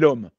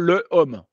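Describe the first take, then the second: First: The article's vowel is dropped and linked to the noun. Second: The article's vowel is kept, with no linking. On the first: The speaker calls it right. "on dit l'homme" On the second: The speaker calls it wrong. "On ne dit pas le homme"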